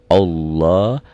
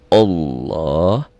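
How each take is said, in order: No difference in how they are said.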